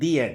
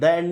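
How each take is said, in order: First: The word 'the' is said with a long 'ee'. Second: The word 'the' is said with a short 'uh'. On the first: The speaker calls it right. "हम बोलते हैं दी एंड" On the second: The speaker calls it wrong. "हम द end नहीं बोलते"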